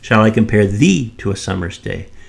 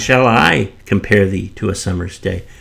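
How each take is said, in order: First: The stress falls on the word thee. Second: The stress falls on the word I. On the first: This person, not someone else, is compared. "shall I compare you to the summer's day or someone else" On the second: The speaker, not someone else, does the comparing. "shall the poet compare uh, thee as opposed to someone else comparing thee?"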